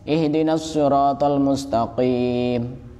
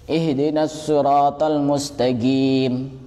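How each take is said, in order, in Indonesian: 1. Huruf qaf terdengar seperti q yang dalam. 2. Huruf qaf terdengar seperti g. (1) "kalau kita sendiri ya bacanya" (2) "kalau orang Hadramaut itu lain bacanya"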